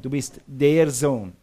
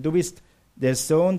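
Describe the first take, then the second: First: "der" drawn out and stressed, as the one and only. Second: Said in the usual way. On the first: Shown as a demonstration. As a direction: lean slowly on "der". Repeat stressing the article. (Betonung auf "der", langsam und gedehnt)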